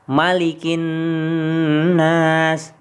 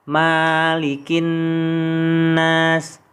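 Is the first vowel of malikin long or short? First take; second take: short; long. First: The first vowel of malikin is short. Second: The first vowel of malikin is long. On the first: The speaker calls it right. "malikinya dibaca pendek" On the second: The speaker calls it wrong.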